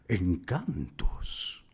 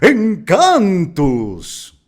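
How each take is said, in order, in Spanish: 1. Se dice con volumen e intensidad moderados. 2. Se dice muy fuerte e intenso. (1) "la interpretación que hicimos en el original" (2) "terminemos con un Encantus muy arriba"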